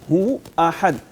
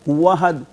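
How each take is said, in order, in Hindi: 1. गले की साफ़ रुकावट 'hu' को 'ahad' से अलग करती है। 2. स्वर बिना किसी रुकावट के 'hadd' में मिल जाता है। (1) "वाव को आगे हमजा के साथ मिक्स नहीं करना" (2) "ऐसे तो हमजा खत्म हो रहा है ना"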